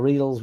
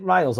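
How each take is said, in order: First: "Riles" said as "ree-ulz", long ee vowel; alternative pronunciation. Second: "Riles" with a long eye vowel, like "rye-ulz"; first pronunciation. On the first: Offering viewer another reading, "Riles" as ree-ulz. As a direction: turn "Riles" into "reels". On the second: Asking viewer how name is said, "Riles" as rye-ulz. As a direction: say "Riles" to rhyme with miles. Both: Shown as a demonstration. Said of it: "is it Riles or Riles".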